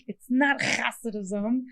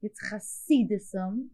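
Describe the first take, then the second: First: Mock the host's Hasidism, slow; wrong pronunciation mocked. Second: Hasidism with a throaty ch sound, slowly; slow Hasidism, rasped ch like in Bach; correct pronunciation. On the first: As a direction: Hasidism said slowly with a plain h sound. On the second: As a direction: give Hasidism its guttural Yiddish ch. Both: Shown as a demonstration. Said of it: "the comedian in me is listening to you talk and you're saying Hasidism".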